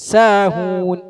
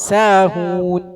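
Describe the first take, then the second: Both takes have the same delivery.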